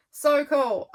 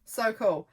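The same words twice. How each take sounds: First: Louder and higher, bursting with delight; excited. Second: Said in the usual way. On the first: Real, not acted. Repeating her delight that they grew pumpkins, excitedly. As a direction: really gush over it.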